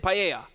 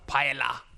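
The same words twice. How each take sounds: First: The double L is said as a Y sound. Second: The double L is said as an L sound. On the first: The speaker calls it right. "because double L rolls into a Y, you try and say paella" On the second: The speaker calls it wrong. "don't say paella"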